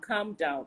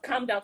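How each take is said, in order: First: It is said in a soft, gentle voice. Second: It is said in a sharp, controlling tone. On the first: The message is passed calmly, not as a pushover. The speaker calls it right. "in a soft voice" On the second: The speaker seems to be trying to control the listener. The speaker calls it wrong. "in the kind of tone that's making you look like you're giving a controlling spirit"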